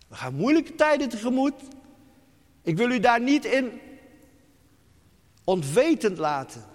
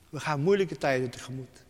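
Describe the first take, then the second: First: Urgent warning. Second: Said in the usual way. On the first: Acted. Repeated warning, first take.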